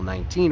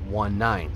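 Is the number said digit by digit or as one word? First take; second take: one word; digit by digit. First: The number is said as one word. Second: The number is said digit by digit. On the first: The speaker calls it wrong. "you never say channel 19 radio check" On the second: The speaker calls it right. "You always say out the number"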